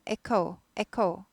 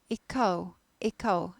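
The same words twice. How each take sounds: Both takes have the same delivery.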